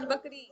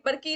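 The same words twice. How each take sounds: First: बकरी said properly, k before r; correct pronunciation. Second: बरकी with r and k swapped; mispronounced word. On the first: Minister correcting the king, बकरी. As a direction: say बकरी cleanly, the right way. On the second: Minister quoting the king's slip, बरकी. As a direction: say बरकी, the king's garbled बकरी. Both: Acted. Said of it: "बरकी नहीं महाराज, बकरी".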